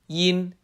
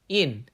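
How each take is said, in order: First: The pitch stays level and flat. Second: The pitch falls sharply downward.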